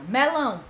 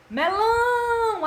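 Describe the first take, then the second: First: Said in the usual way. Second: Melão with lão held long, high and loud; Melão sung out long on lão; stress on lão. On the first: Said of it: "A tia demorou mais em qual?". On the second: Shown as a demonstration. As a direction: stretch the last syllable lão in Melão. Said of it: "A tia demorou mais em qual? No lão".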